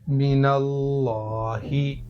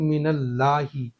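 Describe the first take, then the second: First: The L sound is thick and heavy. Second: The L sound is thin and light. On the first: The speaker calls it right. "मोटा करके पढ़ेंगे" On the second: The speaker calls it wrong. "लाम को बारीक पढ़ रहा हूँ। ऐसा पढ़ना यहाँ पर गलत है"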